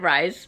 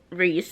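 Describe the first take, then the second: First: The vowel sounds like the 'eye' sound. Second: The vowel sounds like the 'ee' sound. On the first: The speaker calls it wrong. "I always said Rise" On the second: The speaker calls it right. "I'm pretty sure is how it's pronounced"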